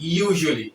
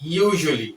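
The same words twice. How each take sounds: The two takes are said the same way.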